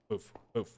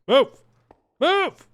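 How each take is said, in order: First: Said in the usual way. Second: Rising, much higher and louder shout. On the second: Real, not acted. Player yelling at a stuck horse, rising shout. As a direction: yell at the stubborn horse.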